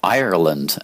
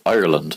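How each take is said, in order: First: The word is said with three syllables. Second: The word is said with two syllables. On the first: This is how Americans say it. "as you crazy Americans say with your extra syllable" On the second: This is how the speaker's own country says it. "It's two syllables"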